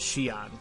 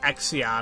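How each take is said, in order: First: The name begins without an 'eks' sound. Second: The name begins with an 'eks' sound. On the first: The speaker calls it right. "the way you're supposed to pronounce it is Xion" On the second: The speaker calls it wrong. "I kept saying it Exion, and I'm like, that can't be right"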